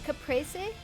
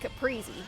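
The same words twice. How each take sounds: First: The middle syllable sounds like 'pray'. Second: The middle syllable sounds like 'pree'. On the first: This follows the word's original language. "if you are pronouncing it in whatever original language it came from" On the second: This is the habitual pronunciation from childhood. "I grew up calling it caprese"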